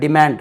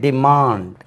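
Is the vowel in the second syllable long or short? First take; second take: short; long. First: The second vowel is a short a sound. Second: The second vowel is a long aa sound. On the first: The speaker calls it wrong. "மக்கள் எப்படி பேசுகிறாங்க" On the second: The speaker calls it right. "இது actually டிமாண்ட். ஏன்னா இது ஆ அல்லவா"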